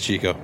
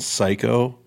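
First: The name begins with a ch sound. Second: The name begins with an s sound. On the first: The speaker calls it right. "It is Chico" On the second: The speaker calls it wrong. "I've gotten psycho"

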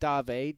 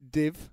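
First: The vowel is long, like in 'day'. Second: The vowel is short, like in 'did'. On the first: "No, Dave, actually" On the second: "Shouldn't you be pronouncing it div?"

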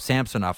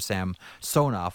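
First: The stress is not on the second syllable. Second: The stress is on the second syllable. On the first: This is how the name is said now. "I guess he's calling himself Samsonov now" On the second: This is the original Russian way of saying the name. "you don't come up on the second syllable in Russian anymore"

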